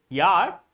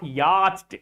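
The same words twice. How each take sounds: First: The 'ch' letters are not pronounced. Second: The 'ch' letters are pronounced aloud. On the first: The speaker calls it right. "but this is yacht. C and H. Both letters are silent" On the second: The speaker calls it wrong. "not yacht or any other pronunciation you you may have"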